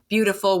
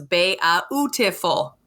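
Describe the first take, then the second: First: The word is said the ordinary way. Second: Every vowel letter is sounded out separately.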